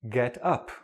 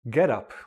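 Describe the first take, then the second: First: The stress falls on the second part. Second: The stress falls on the first part. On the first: It is used as a verb. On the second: It is used as a noun.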